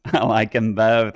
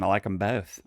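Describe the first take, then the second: First: Slower, louder, laughing I like 'em both; laughing insistence. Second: Said in the usual way. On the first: Shown as a demonstration. Defending liking sweet and salty, louder laughing insistence. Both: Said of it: "I like 'em both".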